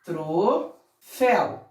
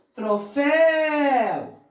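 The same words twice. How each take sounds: First: "Troféu" split into TRO, FÉU; slow "Troféu" with a gap between syllables, lower; separated syllables. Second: "Troféu" joined up, FÉU held very long; stressed last syllable. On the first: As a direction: break "Troféu" into two separate beats. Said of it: "Como separamos essa sílaba?". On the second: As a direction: stretch the final syllable of "Troféu". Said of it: "A última sílaba é tônica". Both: Shown as a demonstration.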